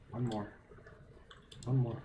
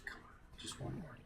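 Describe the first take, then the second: First: Said in the usual way. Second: Breathless hushed urging; a held-breath plea under the voice; tense whisper. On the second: Real, not acted. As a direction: whisper it so nothing hears you. Tense sneaking for last crystal.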